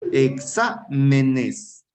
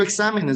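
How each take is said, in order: First: "Exámenes" drawn out very slowly in separate syllables. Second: Said in the usual way. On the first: Shown as a demonstration. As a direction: break "Exámenes" into slow, distinct syllables for a class. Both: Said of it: "vamos a analizar".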